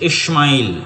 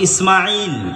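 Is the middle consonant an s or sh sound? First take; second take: sh; s. First: The middle consonant is an sh sound. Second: The middle consonant is a plain s sound. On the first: This is how English speakers say it. "ওরা উচ্চারণ করতেছে এস এইচ" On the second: This is the local way of saying it. "আমরা বলছি ইসমাইল"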